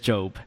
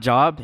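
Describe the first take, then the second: First: It sounds unlike the everyday word job. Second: It sounds like the everyday word job. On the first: The speaker calls it right. "It is Job" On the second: The speaker calls it wrong. "It's not Job. It is spelled like Job, but please don't say Job"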